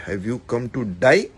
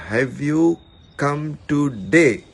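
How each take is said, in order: First: "to die" with a wide "eye" vowel, rising; misheard as DIE. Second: "today" said slowly, ending in a clear "day"; TODAY pronounced clearly. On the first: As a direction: say "to die" as the misheard "today", questioning. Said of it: "I understood that". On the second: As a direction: spell out "today" slowly with an "ay" vowel. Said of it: "instead of". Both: Shown as a demonstration.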